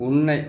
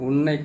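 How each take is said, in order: The two takes are said the same way.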